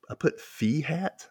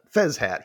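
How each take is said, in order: First: "fee hat" said as fee, with no z; puzzled, slow read of "fee hat" with a rising end; misread word. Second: "Fez hat" with a clear z in Fez; firmly correcting to "Fez hat"; corrected word. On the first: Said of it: "The hell did I write that?". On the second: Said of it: "I wrote it wrong". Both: Shown as a demonstration.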